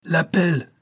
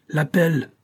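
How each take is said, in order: First: "L'appel" shouted even higher, falling at the end; shouted call. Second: High ringing shout of "L'appel"; shouted call. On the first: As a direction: echo the call "L'appel" across the ship. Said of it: "reprit le maître de manœuvre". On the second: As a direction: call "L'appel" out across the deck. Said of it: "cria le porte-voix du commandant". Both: A narrator's reading.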